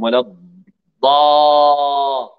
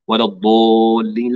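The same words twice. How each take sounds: First: ولا الضا- with the mouth wide open on a long drawn-out a; open-mouthed daad. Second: ولا الضالين with the ض vowel rounded toward o; wrong rounded daad. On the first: Teacher showing the correct open vowel, slow and drawn. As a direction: stretch الضا slowly, jaw dropped. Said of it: "ونفتح الفم". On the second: Teacher demonstrating the common mistake, rounded vowel. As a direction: say الضالين as if it were الضو, lips rounded. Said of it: "لا نقول ولا الضو". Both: Shown as a demonstration.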